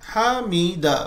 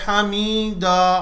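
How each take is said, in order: First: The word flows smoothly without stretching. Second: The sound after the m is drawn out. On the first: The speaker calls it right. "हामीदा बस।" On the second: The speaker calls it wrong. "अगर कोई मीम के बाद खींच दे तो गलत। अगर कोई कहे हामीदा, नहीं"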